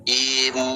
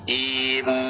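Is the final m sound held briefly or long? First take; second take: briefly; briefly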